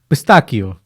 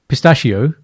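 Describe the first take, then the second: First: It is said with an Italian pronunciation. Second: It is said with an English pronunciation. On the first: The speaker calls it right. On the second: The speaker calls it wrong.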